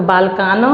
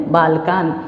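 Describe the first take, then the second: First: बालकान with an extra vowel after the n, "balkano"; wrong final vowel. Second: बालकान closed on n, no vowel after it; lower-pitched बालकान, bare final n; correct halant ending. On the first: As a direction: add an open sound to the end of बालकान. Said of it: "तो बालकान नहीं". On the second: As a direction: end बालकान cleanly on the consonant. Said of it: "स्वर की मात्रा को उच्चारित हम नहीं करेंगे". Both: Shown as a demonstration.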